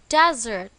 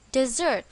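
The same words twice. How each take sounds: First: "desert" with the stress on its first syllable, DEZ-ert. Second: "desert" with the stress on its second syllable, di-ZERT. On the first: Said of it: "On the first syllable". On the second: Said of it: "On the second syllable". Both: Shown as a demonstration.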